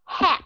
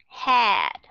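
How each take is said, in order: First: "hat" high and cut short on the t; quick "hat" with a voiceless ending; short vowel. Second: "hat" drawn out, like "had"; long vowel. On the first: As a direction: stop the vowel of "hat" early. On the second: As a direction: stretch the vowel of "hat" before a d. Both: Shown as a demonstration. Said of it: "Bất cứ cái chữ nào".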